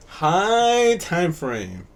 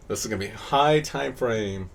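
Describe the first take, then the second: First: High time frame stretched very slowly; slow emphatic repeat. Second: Said in the usual way. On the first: Shown as a demonstration. Teacher repeating the term so students write it down, very slow. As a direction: drag out High time frame for note-taking.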